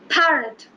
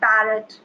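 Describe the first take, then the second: First: The P is said with a strong puff of air. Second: The P is said without a puff of air. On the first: The speaker calls it right. "they will be pronouncing it as parrot" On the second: The speaker calls it wrong. "They will never say parrot"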